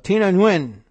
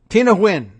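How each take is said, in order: First: The surname starts with an audible N sound. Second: The surname starts with a W sound, like win. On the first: The speaker calls it wrong. "I like to put that Nguyen in there, even though that's probably just wrong" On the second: The speaker calls it right. "it's Win"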